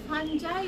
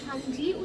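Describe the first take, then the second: First: The word ends with an 'eye' sound. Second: The word ends with an 'ee' sound. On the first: "কেউ ফানজাই উচ্চারণ করে" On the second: "কেউ কেউ ফানজি উচ্চারণ করে"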